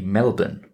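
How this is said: It is said the way Australians say it.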